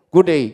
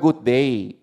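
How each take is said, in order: First: It is said in a slurred Australian accent. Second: It is said clearly in a plain accent.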